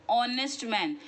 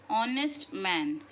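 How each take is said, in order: The two takes are said the same way.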